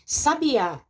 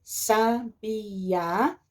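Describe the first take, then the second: First: Said in the usual way. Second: SABIÁ drawn out as sa, bi, á; syllable by syllable. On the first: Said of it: "é separado". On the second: Shown as a demonstration. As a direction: slowly split "sabiá" into three syllables. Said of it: "Sabiá é separado".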